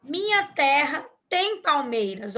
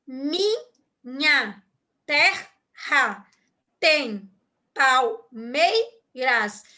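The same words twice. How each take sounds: First: Said in the usual way. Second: "Minha terra tem palmeiras" broken apart, with a pause after each word; split into syllables. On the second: Shown as a demonstration. Teacher shows the class how the verse divides, word by word. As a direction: slowly tap out "Minha", "terra", "tem", "palmeiras" one at a time. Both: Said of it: "Olha como que é a divisão silábica aqui".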